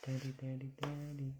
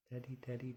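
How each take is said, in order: First: High, bright sing-song daddy; baby talk. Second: Breathy whisper, high and soft; whispered daddy. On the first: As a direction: say it clearly for the baby to copy. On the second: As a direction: whisper it for the baby to copy. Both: Shown as a demonstration. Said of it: "Can you say dad?".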